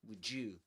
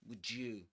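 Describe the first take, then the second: The two takes are said the same way.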